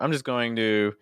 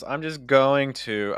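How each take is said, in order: First: The words 'going to' carry no stress. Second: The words 'going to' carry the stress. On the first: "you wouldn't get the stress on going to" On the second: "right now you're putting a stress"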